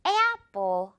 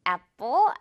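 First: Apple with the A stretched to "e-ah", "eh-appo"; long gliding A in apple; rubber-band A. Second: Apple with a short, simple first vowel, "appo"; flat single-vowel A in apple; unstretched apple. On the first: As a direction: pull the first vowel of apple like a rubber band. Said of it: "에야 같은 느낌이라서". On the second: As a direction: say apple without pulling the A. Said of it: "이렇게 발음이 됩니다". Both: Shown as a demonstration.

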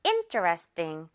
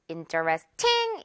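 First: Interesting slowly, front-stressed, falling to a low 띵; interesting with a weak, unaspirated final 띵. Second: Interesting with a strong, aspirated 팅 at the end; interesting with a clear T and weighted last syllable; mistaken airy ending. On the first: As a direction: hit the in of interesting, let the ending drop. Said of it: "in에 강세 있어서". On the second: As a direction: punch the final ting of interesting. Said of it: "이렇게 발음 안 하니까요". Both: Shown as a demonstration.

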